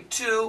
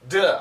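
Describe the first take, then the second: First: It starts with a clear t sound. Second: It starts with a soft d sound. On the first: The speaker calls it wrong. "We don't say to" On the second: The speaker calls it right. "We say duh"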